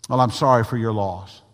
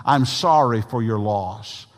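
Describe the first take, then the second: First: Quicker, tossed-off condolence; rote catchphrase. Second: Slow, meant condolence; sincere condolence. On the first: Preacher mimicking a stock condolence, perfunctory. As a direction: say it as a stock phrase. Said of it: "a catchphrase". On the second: Preacher showing how to console someone, sincere. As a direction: say it slowly so it is meant. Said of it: "say it in a way that you mean it". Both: Shown as a demonstration.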